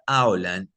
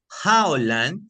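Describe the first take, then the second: First: The word begins directly with a vowel. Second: The word begins with a throaty J sound. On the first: It means something different. "significa otra cosa diferente" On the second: It has one meaning. "hay una tendencia en pronunciarla como J y no debe ser así"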